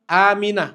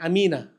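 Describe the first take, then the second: First: The first vowel is drawn out long. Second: The first vowel is said short. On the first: The speaker calls it right. "A-nya yang panjang" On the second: The speaker calls it wrong. "bukan Aminah"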